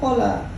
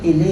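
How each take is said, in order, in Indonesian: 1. Diucapkan dengan vokal o dan a. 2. Diucapkan dengan dua vokal i. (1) "Kalau orang dibacanya kola" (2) "Ini kan kalau ini kili dibacanya"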